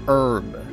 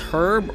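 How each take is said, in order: First: The word begins with a vowel, H silent. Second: The word begins with an audible H sound.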